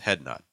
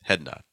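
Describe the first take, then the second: No difference in how they are said.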